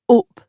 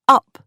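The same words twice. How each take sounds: First: It is said with a northern English vowel. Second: It is said with a southern English vowel. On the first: "and up in the north" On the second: "pronounced up in the south"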